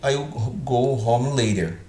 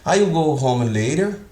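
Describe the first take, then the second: First: It is said with a statement intonation. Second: It is said with a questioning intonation. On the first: The speaker calls it right. "Eu estou afirmando" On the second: The speaker calls it wrong. "Ainda continuo é, falando como se estivesse perguntando"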